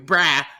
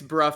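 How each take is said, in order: First: The vowel sounds like 'ah'. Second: The vowel sounds like 'uh'. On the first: "That's basically what you're saying" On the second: "let me fix bruh for you"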